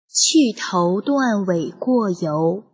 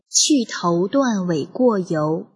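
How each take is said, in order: First: It is read at a slowed-down pace. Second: It is read at a normal, quicker pace.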